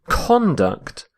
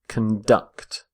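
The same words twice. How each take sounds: First: The stress is on the first syllable. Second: The stress is on the second syllable.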